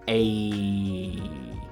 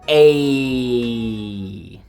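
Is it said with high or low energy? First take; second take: low; high. First: It is said flatly with low energy. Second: It is said lively with high energy.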